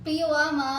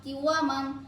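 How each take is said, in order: First: The word ends on a vowel. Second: The word ends with an n sound. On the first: The reader stops on this word. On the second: The reading continues without a stop.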